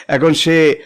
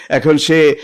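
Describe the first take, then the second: The two takes are said the same way.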